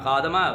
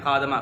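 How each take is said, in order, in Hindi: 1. d के बाद वाले अक्षर में 'a' स्वर है। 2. d के बाद वाले अक्षर में 'a' स्वर है।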